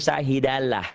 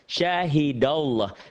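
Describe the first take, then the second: First: The L in Allah is thin and light. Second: The L in Allah is thick and full. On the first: The speaker calls it wrong. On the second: The speaker calls it right. "ada huruf berbaris di atas"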